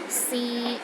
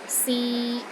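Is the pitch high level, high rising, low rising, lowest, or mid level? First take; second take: mid level; mid level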